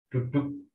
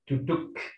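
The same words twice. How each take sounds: First: Indonesian accent, with an unreleased final k. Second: American accent, with a released final k.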